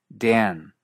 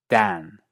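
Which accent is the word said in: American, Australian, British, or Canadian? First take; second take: American; British. First: The vowel is raised even further, American style. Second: The vowel stays an open a, British style. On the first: "En partes de Estados Unidos, el efecto es aún mayor" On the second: "En inglés británico estándar, curiosamente, se mantiene como A"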